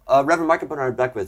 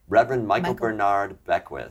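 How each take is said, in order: First: The name is said at normal speed. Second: The name is said more slowly.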